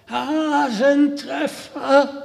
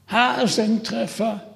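First: Higher, slow, drawn-out hoarse call; hoarse shout. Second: Hoarse shout. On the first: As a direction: call the name out the window, hoarse. (heiser hinausgeschrien) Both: Acted. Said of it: "schrie er mit heiserer Stimme hinaus".

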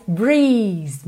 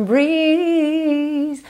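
First: "breeze" with a long but not exaggerated ee; moderately long vowel. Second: "breeze" with a hugely long held ee; playfully stretched vowel. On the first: Teacher tones down the example, "breeze" moderately long. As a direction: lengthen the ee of "breeze" only a little. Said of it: "Nem, nem tanto". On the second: Teacher imitates singer playing with it, "breeze" stretched out. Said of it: "ele ainda brinca com esse som". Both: Shown as a demonstration.

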